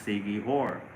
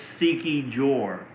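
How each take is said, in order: First: The last syllable begins with an H sound. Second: The last syllable begins with a J sound. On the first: The speaker calls it right. "but they said it's Siki Hor" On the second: The speaker calls it wrong. "I used to pronounce it Siki Jor. And then I was told that that's not how you pronounce it"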